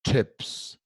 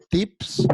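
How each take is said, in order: First: Tips with a che-like T and a short open vowel; American tips. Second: Tips read the Spanish way. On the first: Teacher shows the right American way to say tips. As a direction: tips said almost like cheps. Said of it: "sino vamos a decir". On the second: Teacher shows the wrong Spanish way to say tips. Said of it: "No vamos a decir tips". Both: Shown as a demonstration.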